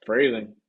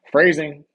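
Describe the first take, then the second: First: Phrasing broken up by laughter; Phrasing said while cracking up; laughing repeat. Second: Sharp, loud Phrasing; loud pitch-raised Phrasing; Archer callout. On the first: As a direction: giggle through Phrasing. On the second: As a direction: bark Phrasing like the Archer gag. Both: Retold or imitated. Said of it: "Thank you, Archer".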